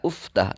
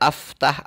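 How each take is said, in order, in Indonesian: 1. Kata itu dimulai dengan vokal u. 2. Kata itu dimulai dengan vokal a. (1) "tidak uftah" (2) "Tidak aftah"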